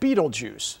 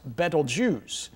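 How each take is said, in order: First: The name sounds like beetle juice. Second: The name does not sound like beetle juice. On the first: "most people pronounce it Betelgeuse, so they can remember it" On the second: "is correctly pronounced Betelgeuse"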